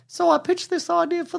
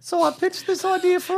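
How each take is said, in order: First: It is said in the speaker's natural voice. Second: It is said in a put-on imitation voice. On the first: The speaker is just reading the quote. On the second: The speaker is imitating the person being quoted.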